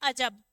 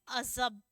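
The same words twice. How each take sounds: First: It is said with plain Hindi sounds. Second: It is said with Perso-Arabic nukta sounds. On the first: The speaker calls it wrong. "अगर नुक्ता नहीं होता तो क्या बोलते हैं?" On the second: The speaker calls it right. "अगर नुक्ता लगा हुआ है तो क्या बोलेंगे?"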